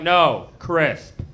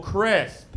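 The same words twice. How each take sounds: First: "crisp" louder with a crisp s; correcting pronunciation. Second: "crisp." with the s lisped. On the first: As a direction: correct him, hit "crisp" clean. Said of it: "she's like". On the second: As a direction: repeat "crisp." with a thick lisp. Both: Retold or imitated.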